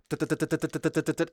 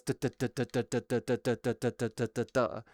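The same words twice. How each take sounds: First: Rapid duh duh duh; quicker mouth-made fire rate; fast firing duhs. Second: Lower, softer steady duh duh duh; measured mouth gunfire; slow firing duhs. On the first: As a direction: rattle off fast mouth gunfire. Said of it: "the way that I had it was". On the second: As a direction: mimic slow normal fire rate. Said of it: "normally it's like". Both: Shown as a demonstration.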